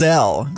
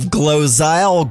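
First: The last syllable sounds like 'zell'. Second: The last syllable sounds like 'zyle'. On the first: The speaker calls it right. "Glozell, not Zyle" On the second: The speaker calls it wrong. "not Zyle"

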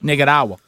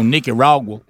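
First: The R is rolled. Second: The R is not rolled. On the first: The speaker calls it right. "you roll the R. You roll it" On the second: The speaker calls it wrong. "You don't go"

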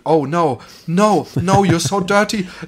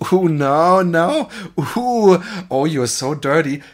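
First: It is read out flatly, as in court. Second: It is said in a playful, moaning way.

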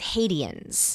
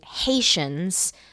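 First: The word is pronounced letter by letter. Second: The word is pronounced the usual way. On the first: The speaker calls it wrong. "she says Haitians. Because that's how it's spelled" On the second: The speaker calls it right. "instead of saying Haitians"

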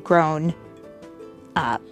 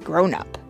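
First: The two words are said apart with a gap. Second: The two words run together without a gap. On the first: The speaker calls it wrong. "you wouldn't say grown up" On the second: The speaker calls it right. "they stay together"

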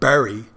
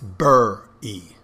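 First: It is said with a standard 'berry' vowel. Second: It is said like 'burry', Philadelphia style.

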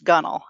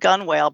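First: The word is shortened, with letters left silent. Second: The word is sounded out just as written. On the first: The speaker calls it right. "but it's pronounced gunwale" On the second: The speaker calls it wrong. "So it's spelled gunwale"

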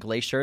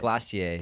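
First: It is said with an American pronunciation. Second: It is said with a British pronunciation.

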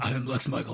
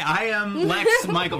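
First: It is said in a deep Batman voice. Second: It is said in a normal voice.

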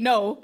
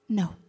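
First: The word is said harshly and forcefully. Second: The word is said softly and gently. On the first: A blunt, aggressive refusal. "I think it's not harsh. It's not saying no" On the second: A polite but firm refusal. "It's saying no. ... It's gentle"

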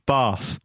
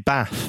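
First: The A is said hard and posh-sounding. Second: The A is said plain, not posh-sounding. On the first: This is how speakers with this accent say it. "the Norfolk accent is posh because we say Bath" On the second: This is not how speakers with this accent say it. "We don't say Bath"

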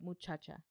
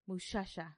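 First: It uses 'ch' sounds, not 'sh'. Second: It uses 'sh' sounds instead of 'ch'. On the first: This is how the speaker normally says it. "instead of" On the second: This is how people from Chihuahua say it. "It's very sh"

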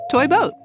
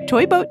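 First: It is said at a normal, slow pace. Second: It is said fast.

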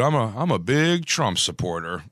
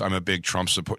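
First: It is said with lively, expressive intonation. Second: It is said flatly, without expressive intonation. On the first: The statement is not meant literally. "it's a difference between saying like" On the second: The statement reads as meant literally. "writing that looks like ... there's no inflection and tone"

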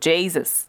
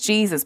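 First: The first syllable has a changed vowel. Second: The first syllable has the usual vowel. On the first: "The way we've changed that first syllable" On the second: "not so much"

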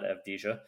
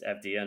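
First: The name is said with a J sound. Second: The name is said without a J sound. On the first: The speaker calls it wrong. "not Avdija" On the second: The speaker calls it right. "there is no J sound in Hebrew. So it's Avdija"

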